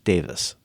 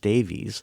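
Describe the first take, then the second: First: The name ends with a 'vis' sound. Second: The name ends with a 'veez' sound. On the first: This is how it is said in Britain. "it's pronounced in Britain as Davis" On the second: This is how Americans would say it. "it's spelled in a way that Americans would pronounce Davies"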